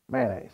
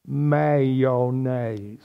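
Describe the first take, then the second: First: "Mayonnaise" squeezed to man-aise, two syllables; clipped Southern mayonnaise. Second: Low, slow "Mayonnaise" in three syllables; drawn-out mayonnaise. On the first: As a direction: clip "Mayonnaise" to two beats. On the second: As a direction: stretch "Mayonnaise" out. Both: Shown as a demonstration. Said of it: "couldn't shape their mouth correctly".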